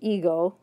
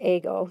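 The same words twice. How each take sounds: First: The first vowel is a long 'ee' sound. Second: The first vowel is a short 'eh' sound. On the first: This is the English pronunciation. "it's English ego" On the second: This is the Japanese loanword pronunciation. "but in Japanese it's ego"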